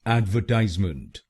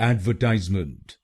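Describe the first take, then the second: Both takes have the same delivery.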